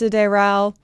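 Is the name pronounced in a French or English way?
French. The name is said with French pronunciation. The speaker calls it right. "I believe this is meant to be pronounced Sideral"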